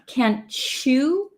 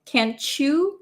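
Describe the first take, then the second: First: The final word starts with a 'ch' sound. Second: The same.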